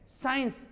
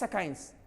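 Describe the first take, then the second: First: It begins with a single plain s sound. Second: It begins with an s followed by k. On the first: The speaker calls it right. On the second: The speaker calls it wrong.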